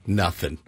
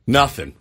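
First: Nothing said low and flat; low dropped Nothing. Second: Said in the usual way. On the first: Real, not acted.

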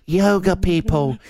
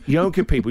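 First: Slow, drawn-out "Yoga people" with weight on "Yoga"; stressed yoga people. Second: Said in the usual way. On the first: Shown as a demonstration. To the hosts about yoga people, slow stress on "Yoga". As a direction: lean hard on "Yoga", slowly. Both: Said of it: "'Cause you know who I see?".

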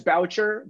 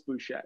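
First: "Boucher" said as BOW-cher; English pronunciation. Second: "Boucher" said as boo-SHAY, silent r; original French pronunciation. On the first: Co-host guessing the everyday name, "Boucher" as BOW-cher. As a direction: say "Boucher" English-style, rhyming with voucher. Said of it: "I'm guessing it's Boucher". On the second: Co-host guessing the name's core, "Boucher" as boo-SHAY. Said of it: "guessing at its core". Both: Shown as a demonstration.

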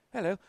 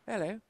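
The two takes are said the same way.

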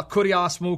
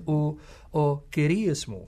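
First: Kurios mu with "oo", KOO-dee-ahs moo; professor's Greek. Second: Kyrios mu with "ee", KEE-ree-os moo; native Greek pronunciation. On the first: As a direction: say kurios mu in academic Erasmian Greek. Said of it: "a New Testament professor saying". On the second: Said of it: "native Greek speaker". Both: Retold or imitated.

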